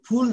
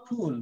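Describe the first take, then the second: First: "ফুল" with the bigger oo, stressed louder; wrong long oo. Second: "ফুল" with a small u pulled inward; short inward u. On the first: Teacher shows what it isn't, "ফুল" with full oo. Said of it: "এটা কিন্তু ফুল না". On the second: Teacher corrects to the right vowel, "ফুল" with short u. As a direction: say "ফুল" short, sound kept inside. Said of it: "একটু ছোট হবে". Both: Shown as a demonstration.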